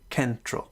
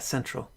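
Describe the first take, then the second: First: The word begins with a K sound. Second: The word begins with an S sound. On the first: "pronounce it with a K" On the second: "the S version of C"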